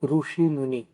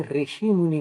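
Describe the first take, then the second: First: ऋषि said as "rushi", with ऋ as "ru"; ऋषि with a rounded "ru" sound; ऋषि pronounced "rushi", the southern way; southern pronunciation. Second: ऋषि said as "rishi", with ऋ as "ri"; ऋषि with a front "ri" sound; ऋषि pronounced "rishi", the northern way; northern pronunciation. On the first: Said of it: "दक्षिणापथ में रु होता है". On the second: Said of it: "उत्तरापथ में ऋषि मुनि होता है". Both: Shown as a demonstration.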